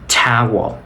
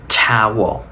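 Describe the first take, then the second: First: The final L is barely heard; vowel stretched. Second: The final L is barely heard; vowel stretched.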